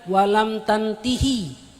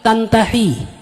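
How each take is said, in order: First: The vowel before the final hi is i. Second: The vowel before the final hi is a. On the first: The speaker calls it wrong. "bukan walam tantihi" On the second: The speaker calls it right. "tapi tantahi"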